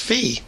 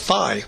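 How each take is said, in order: First: The word is said with an 'ee' vowel. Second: The word is said with an 'eye' vowel. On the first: This is the way professors say it. "I always heard professors pronounce this as fee" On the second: This is the way fraternities and sororities say it. "fraternities and sororities go with phi"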